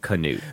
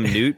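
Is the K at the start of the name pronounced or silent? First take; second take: pronounced; silent. First: The name starts with a K sound before N. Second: The name starts with an N sound, no K. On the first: This is how friends say the name. The speaker calls it right. "but his friends call him Canute" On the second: This is how strangers say the name. The speaker calls it wrong. "All the strangers call him Newt"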